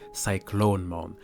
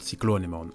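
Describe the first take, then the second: First: No extra vowel sound comes before the final 'mon'. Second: An extra vowel sound comes before the final 'mon'. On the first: The speaker calls it right. "the right pronunciation would be Cyclonemon" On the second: The speaker calls it wrong. "as I call it"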